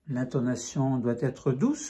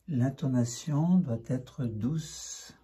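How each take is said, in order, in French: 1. La voix est vive avec une hauteur variée. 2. La voix est douce avec une hauteur régulière.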